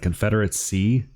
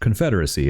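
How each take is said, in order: First: The word is broken up into separate chunks. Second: The word flows smoothly as one unit. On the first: The speaker calls it wrong. "it's like Confederacy" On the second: The speaker calls it right. "why don't you pronounce it like fluidly?"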